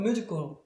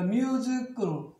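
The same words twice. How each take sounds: First: The word is said quickly and smoothly. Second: The word is said slowly, syllable by syllable.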